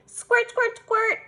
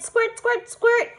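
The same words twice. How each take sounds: First: High, bouncy squirt squirt; child playing with a pretend seltzer bottle; playful squirt noises. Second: High, punchy squirt squirt; spray the mirror with play sounds; child pretending to squirt herself; playful squirt noises. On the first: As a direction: pretend to spray your dolls. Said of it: "I said again". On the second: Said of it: "I said".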